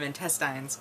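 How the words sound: It is said the rural way.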